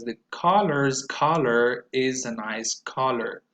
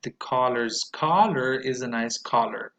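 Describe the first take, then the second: First: Slow, collar vowels clear; first take; slow model sentence. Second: Collar repeated at normal pace; second take; repeat model. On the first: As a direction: model for repetition. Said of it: "number five goes". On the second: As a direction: read it again. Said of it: "So one more time". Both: Shown as a demonstration.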